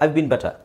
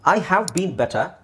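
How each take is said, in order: First: The word have is shortened to a v. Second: The word have is pronounced in full.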